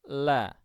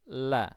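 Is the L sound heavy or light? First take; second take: light; light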